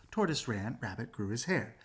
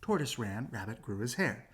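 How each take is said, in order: Both takes have the same delivery.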